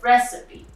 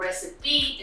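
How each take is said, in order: First: The stress is on the first syllable. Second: The stress is not on the first syllable. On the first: The speaker calls it right. "instead of recipe" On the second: The speaker calls it wrong. "or recipe"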